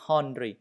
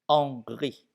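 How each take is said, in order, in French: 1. Il commence par un son H audible. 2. Il ne commence pas par un son H. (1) "Ce n'est pas Henry, non" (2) "Le H, on ne prononce pas"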